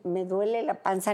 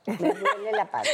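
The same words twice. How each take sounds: First: Said in the usual way. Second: "Me duele la panza" in a much higher, whining plea; whiny complaint. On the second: Shown as a demonstration. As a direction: whimper it like a needy wife calling her husband. (queja quejumbrosa y mucho más aguda) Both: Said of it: "aunque sea para decir".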